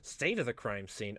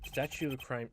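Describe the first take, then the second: First: "State" said carefully, slowly, one syllable; slow corrected "State of the crime scene"; correct reading. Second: "Statue" said as the word statue, stress on STAT; misreading. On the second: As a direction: misread "Statue" as sculpture, not state. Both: Acted. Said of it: "s-, uh, statue".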